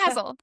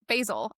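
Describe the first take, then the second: First: The name is said with a British pronunciation. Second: The name is said with an American pronunciation. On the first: The speaker calls it right. "wait, no, it's in England, Basil" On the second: The speaker calls it wrong. "I am here in America being like Basil"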